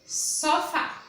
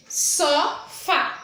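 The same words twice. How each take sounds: First: Said in the usual way. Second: "Sofá" split into two drawn-out syllables, so... fá; syllable-by-syllable stress. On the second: Shown as a demonstration. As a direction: say "Sofá" in two separate beats for a class. ("Sofá" pausado, sílaba por sílaba) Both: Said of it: "É a que eu falo com mais intensidade".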